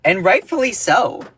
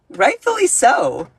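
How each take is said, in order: First: Said in the usual way. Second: Higher, slower, sassy put-on voice; mock-prim echo of her own line; sassy repeat. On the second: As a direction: drag out the words with a knowing sass.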